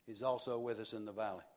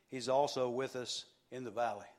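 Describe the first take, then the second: First: Softer, quicker "He's also with us in the valley"; whisper-near aside repeat; hushed preacher echo; soft fast echo. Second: Said in the usual way. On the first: Shown as a demonstration.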